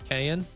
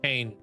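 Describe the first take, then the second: First: The name ends with an extra vowel sound. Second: The name ends with no extra vowel sound. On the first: The speaker calls it wrong. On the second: The speaker calls it right.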